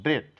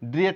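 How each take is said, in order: First: The vowel is said as one sound. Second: The vowel is split into two sounds. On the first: The speaker calls it right. "এই লেটারটি অনুচ্চারিত রয়েছে" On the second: The speaker calls it wrong. "ড্রিয়েট না বলে"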